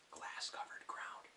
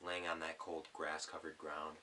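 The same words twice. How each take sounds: First: Slow whisper fixing the word Glass-covered; quietly whispered self-correction. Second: Said in the usual way. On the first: Real, not acted. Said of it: "I screwed up". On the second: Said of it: "Glass-covered ground. I screwed up".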